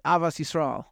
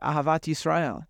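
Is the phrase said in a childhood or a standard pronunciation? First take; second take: childhood; standard. First: It is said in a childhood pronunciation. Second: It is said in a standard modern pronunciation.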